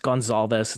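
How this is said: The name is said with a Spanish pronunciation. "it's Gonzalez in Spanish"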